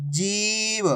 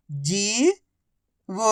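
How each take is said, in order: First: जीव joined as one soft word with long ee; blended word. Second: जीव split as जी, long pause, व; syllable by syllable. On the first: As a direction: blend जी and व into जीव without a gap. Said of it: "आपस में मिला के पढ़ दो". (जीव को मिलाकर बोलें) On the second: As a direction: sound out जीव slowly, जी rising, then व alone. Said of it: "एक अक्षर की पहचान करो, उनका उच्चारण करो". (जीव को अक्षर-अक्षर अलग बोलें) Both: Shown as a demonstration.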